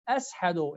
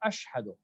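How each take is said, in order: First: The middle consonant is a plain 's' sound. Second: The middle consonant is an 'sh' sound. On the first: The speaker could not pronounce the letter sheen. The speaker calls it wrong. "He say ashadu instead of" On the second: This is the proper pronunciation with sheen. The speaker calls it right. "instead of ashhadu"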